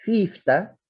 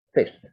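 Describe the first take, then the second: First: Fifta said with full final a; Old English fifta. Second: Fifth said short, one syllable; English fifth. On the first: Professor contrasting Anglo-Saxon fifta, two syllables. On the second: Professor showing English fifth, shortened. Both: Shown as a demonstration. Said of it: "fifta ha pasado a ser fifth".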